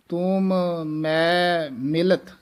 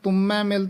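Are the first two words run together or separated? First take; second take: separated; run together. First: The first two words are said apart. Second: The first two words are merged into one. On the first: The speaker calls it right. "ਨਖੇਰ ਕੇ ਇਹ ਪਦ ਪੜ੍ਹਨੇ ਹਨ" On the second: The speaker calls it wrong. "ਤੁਮੈ ਮਿਲਤ ਨਹੀਂ ਕਹਿ ਦੇਣਾ"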